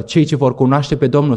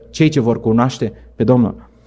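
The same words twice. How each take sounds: First: Said in the usual way. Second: Slow, weighty repeat of Cei ce vor cunoaște pe Domnul; slow emphatic repeat. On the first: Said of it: "spune Daniel". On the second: Shown as a demonstration. Preacher repeating Daniel's words to the congregation, slow and weighty. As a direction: let it sink in slowly.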